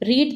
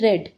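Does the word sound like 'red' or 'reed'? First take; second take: reed; red. First: The word has a long 'ee' vowel. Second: The word has a short 'e' vowel. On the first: The speaker calls it wrong. "यहाँ पर रीड दिया है" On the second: The speaker calls it right. "हमारी pronunciation हो जाएगी रेड"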